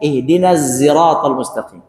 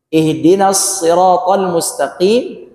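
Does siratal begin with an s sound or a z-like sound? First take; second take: z-like sound; s sound. First: Siratal begins with a sound between s and z. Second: Siratal begins with a plain s sound.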